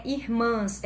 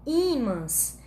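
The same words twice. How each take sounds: First: "irmãs" said as ir-MÃS, stress on the last syllable; the wrong word to avoid. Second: "ímãs" said as Í-mãs, stress on the first Í, slowly; correct word, stressed first syllable. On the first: Teacher naming the look-alike word for students, ir-MÃS. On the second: Teacher correcting students, slow Í-mãs with first-syllable stress. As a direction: draw out "ímãs", leaning on the opening Í. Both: Shown as a demonstration. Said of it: "Não é irmãs".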